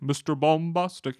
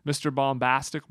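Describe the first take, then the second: First: Lightly imitated singer, slow with a broadened vowel. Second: Said in the usual way. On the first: Host quoting a hit song, light singer imitation. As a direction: draw out Bombastic as "bom-BAHS-tic", lightly mimicking. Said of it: "he has that very unique voice of singing". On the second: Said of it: "He's had a couple hit songs".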